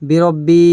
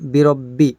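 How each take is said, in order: First: A vowel in the word is drawn out long. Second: The vowels are short, with a doubled consonant. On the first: The speaker calls it wrong. "এরকম হবে না" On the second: The speaker calls it right. "এরকম হবে"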